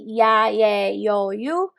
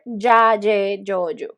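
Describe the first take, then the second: First: The Y sounds soft and vowel-like, like I. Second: The Y sounds like a stronger consonant. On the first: Some speakers in parts of Latin America say it this way. "they will say this as a ah as an I" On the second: This is how the speaker personally says it. "I will say ja, je, yo, you"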